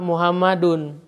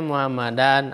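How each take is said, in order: First: The word ends with the vowel u plus n. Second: The word ends with the vowel a plus n. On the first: The speaker calls it right. "maka kita harus membacanya dhammah" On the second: The speaker calls it wrong. "Tidak boleh kita membacanya"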